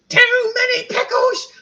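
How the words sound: It is said in a put-on funny voice.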